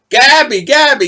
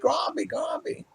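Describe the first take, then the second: First: "Gabby" said without the r, a plain hard G straight into the vowel; lightly mock the wrong "Gabby", no r at all; saying Gabby wrong. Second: "Grabby" with a clear r rolled in after the G, called out high; the corrected grabby. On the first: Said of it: "I was saying Gabby". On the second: Retold or imitated. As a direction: correct it to "grabby", hitting the gr hard. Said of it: "No, no, not Gabby".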